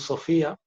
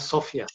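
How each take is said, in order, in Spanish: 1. El nombre se dice a la manera española habitual. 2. El nombre se dice a la manera polaca. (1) "lo que siempre conocemos como Sofía" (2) "en polaco se llama Sofia"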